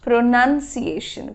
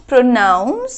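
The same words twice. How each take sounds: First: "প্রোনাউন্সিয়েশন" slowly as pro-nun-see-AY-shun; demonstrated pronunciation. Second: "প্রোনাউন্স" as pro-NOUNS, loud on NOUNS; demonstrated pronunciation. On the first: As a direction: say nun, not noun, in "প্রোনাউন্সিয়েশন". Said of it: "আর এটা হলো". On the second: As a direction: punch the ow in "প্রোনাউন্স". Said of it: "So this is". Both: Shown as a demonstration.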